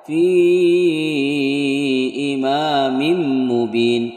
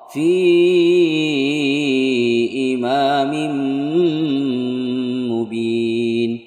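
First: The n merges into m with little nasal hum. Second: The n merges into m with a long nasal hum. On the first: The speaker calls it wrong. "kurang berdengung" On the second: The speaker calls it right. "dibaca berdengung"

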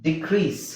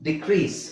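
No difference in how they are said.

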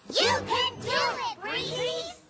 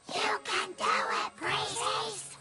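First: The cheer is said loudly. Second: The cheer is said quietly.

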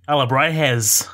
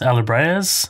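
First: It is said in a put-on Australian accent. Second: It is said in the speaker's ordinary accent.

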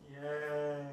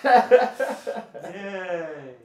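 First: It is said flatly, without enthusiasm. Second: It is said with more enthusiasm.

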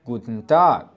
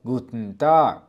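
First: The vowel in the second syllable is pronounced. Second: The vowel in the second syllable is dropped.

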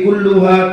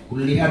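First: The vowel after the double L is u. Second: The vowel after the double L is i. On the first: The word agrees with the skins. The speaker calls it right. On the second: The word agrees with the dead animal. The speaker calls it wrong. "Kenapa kulli?"

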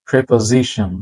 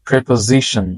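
The two takes are said the same way.

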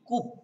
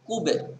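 First: The final b stops plainly with no echo. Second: The final b is released with a bouncing echo. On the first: The speaker calls it wrong. "এই কূপটাকে আমরা এইভাবে বললে সুন্দর হবে না" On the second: The speaker calls it right. "আমাদের এখানে কলকলাও করতে হবে"

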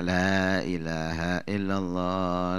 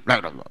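First: It is said slowly, with drawn-out vowels. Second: It is said hurriedly, in a jerky way.

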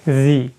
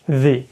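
The two takes are said the same way.

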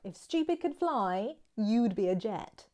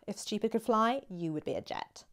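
First: The tone is light and playful. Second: The tone is harsh and cutting. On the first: The speaker is teasing someone in a friendly way. "If you don't want to sound rude, but you just want to sound like you're being funny, witty" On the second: The speaker is really calling someone stupid. "then you can see there's a big difference in your attitude, your intonation"

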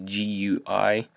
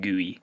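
First: It is spelled out as separate letters. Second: It is said as a single word. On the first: It is the full form of the abbreviation. "so it's actually GUI" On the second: It is the usual form among programmers. "programmers always just pronounce it GUI"

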